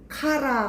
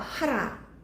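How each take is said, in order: First: The word begins with a hard K sound. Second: The word begins with a breathy H sound. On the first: "카라라고 하기도 하고" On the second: "하라라고 하는데"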